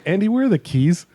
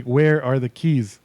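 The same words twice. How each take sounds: First: Said in the usual way. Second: "Where are the keys" spaced out slowly, word by word; drawn-out, insistent "Where are the keys"; slow, pointed repeat. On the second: Retold or imitated. Repeats question after useless answer.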